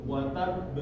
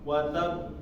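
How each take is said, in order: Both takes have the same delivery.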